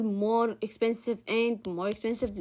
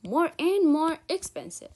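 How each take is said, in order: First: "more expensive and more expensive" loudly recited, repeating the whole phrase; louder run-through of "more expensive and more expensive"; wrong example. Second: "More and more expensive" high, loud and slow; emphatic correction. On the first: Teacher showing the mistake, "more expensive and more expensive" said louder. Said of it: "لا، غلط". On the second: Teacher correcting the mistake, "More and more expensive" slow and emphatic. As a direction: punch "More and more" slowly, higher and louder. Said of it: "ال more هي اللي تتكرر". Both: Shown as a demonstration.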